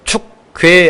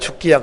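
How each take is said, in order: First: The word is said crisply, each syllable clear. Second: The word is slurred, the second vowel reduced. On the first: The speaker calls it right. "딱 또박또박 해야 발음이 되는데" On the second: The speaker calls it wrong. "그게 안 되고"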